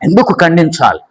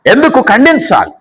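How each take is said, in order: First: Said in the usual way. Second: ఎందుకు lifted high, insistent; preacher repeats the question with a higher ఎందుకు; repeated higher, pressing. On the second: Shown as a demonstration. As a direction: ask ఎందుకు again, higher and more urgent.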